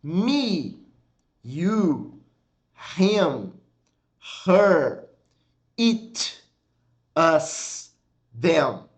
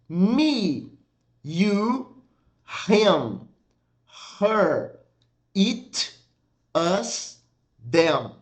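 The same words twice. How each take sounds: The two takes are said the same way.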